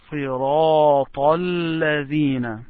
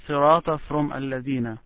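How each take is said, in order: First: صراط الذين joined in one long held phrase; connected. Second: Said in the usual way. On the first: Shown as a demonstration. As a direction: recite صراط straight into الذين without a break. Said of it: "make sure that you connect". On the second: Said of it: "don't separate".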